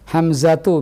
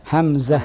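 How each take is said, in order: First: The name ends with a 'tu' syllable. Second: The name ends with a soft 'h' sound. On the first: "ada ta' marbutah di belakangnya" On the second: "kita matikan ta' marbutahnya"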